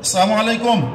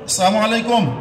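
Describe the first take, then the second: First: The 'l' sound in 'salamu' is left out. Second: The 'l' sound in 'salamu' is left out.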